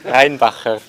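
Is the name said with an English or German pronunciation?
German. The name is said in a German pronunciation. "There we go. That's the proper button"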